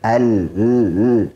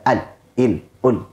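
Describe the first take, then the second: First: The l sound is held and flows slightly. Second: The l sound is cut short abruptly. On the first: The speaker calls it right. "Tapi ... Ada aliran sedikit" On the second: The speaker calls it wrong.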